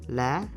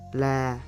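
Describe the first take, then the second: First: The pitch starts high and rises. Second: The pitch stays flat in the mid range. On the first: "Now is acute" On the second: "This is unmarked"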